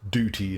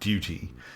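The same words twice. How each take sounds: First: It is said with an American pronunciation. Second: It is said with a non-American pronunciation. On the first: "Americans say" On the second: "we say"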